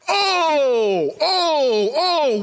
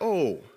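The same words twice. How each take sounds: First: It is said with strong, awed feeling. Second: It is said flatly, without feeling. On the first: The speaker calls it right. "you have to read it with that gumption inside of you" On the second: The speaker calls it wrong. "Don't just read it like"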